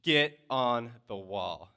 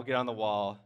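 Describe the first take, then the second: First: Slow, loud stern-dad order. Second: Said in the usual way. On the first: Retold or imitated. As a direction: order it like a dad, each word drawn out. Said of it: "in, like, now my dad voice". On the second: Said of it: "but my dad voice, I say".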